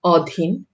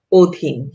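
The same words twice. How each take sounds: First: অধীন with an open ɔ first vowel, as spelled; অধীন read letter by letter, ɔdhin; read as written. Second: অধীন with an o first vowel, odhin; অধীন said the spoken way, first vowel as o; spoken pronunciation. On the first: (অধীন লিখিত রূপে, অ-ধ্বনিতে) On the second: (অধীন ও-কারের মতো উচ্চারণে) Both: Shown as a demonstration. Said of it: "লিখিত রূপ অতীত উচ্চারিত হবে অতীত".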